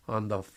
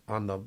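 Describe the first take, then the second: No difference in how they are said.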